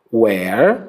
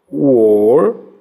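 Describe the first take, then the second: First: "Where" with open e, like Portuguese é; open vowel. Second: "Were" with a closed, rounded vowel. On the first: Teacher shows the open sound of where to students. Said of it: "som aberto". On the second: Teacher contrasts the closed sound of were for students. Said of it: "som fechado". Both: Shown as a demonstration.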